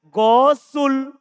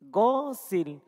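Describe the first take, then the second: First: The s is followed by a u vowel. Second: The s is followed by an i vowel. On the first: The speaker calls it wrong. "Kalau orang yang tidak tahu, bisa saja dia baca" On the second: The speaker calls it right. "Huruf sinnya ini di sini kasro"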